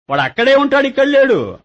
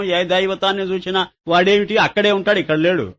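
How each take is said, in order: First: Higher, punching అక్కడే and ఇక్కడ; emphatic repeat. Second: Said in the usual way. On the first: Shown as a demonstration. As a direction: drive home that అక్కడే is there and ఇక్కడ is not. Repeats the same point with emphasis. (గట్టిగా ఒత్తి చెప్పడం)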